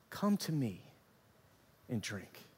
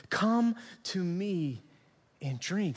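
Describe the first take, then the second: First: Soft, low, dropping away on "drink"; hushed invitation. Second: Drawn-out words with a pause before "and drink"; slow, deliberate invitation. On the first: Preacher quoting Jesus to the congregation, hushed invitation. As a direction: offer it quietly, letting the last words sink. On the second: Preacher repeating Jesus's words to the congregation, slow and deliberate. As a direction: stretch out "Come to me", giving each word weight. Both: Retold or imitated.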